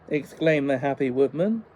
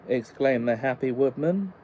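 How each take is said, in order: The two takes are said the same way.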